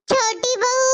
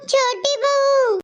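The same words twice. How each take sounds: First: Said in the usual way. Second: Slow, stretched call across the house; drawn-out call. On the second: Acted. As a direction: stretch out बहू to call her from another room. Mother-in-law calling younger bahu. (खींचकर लंबी आवाज़ में पुकारना)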